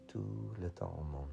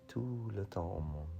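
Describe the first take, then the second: No difference in how they are said.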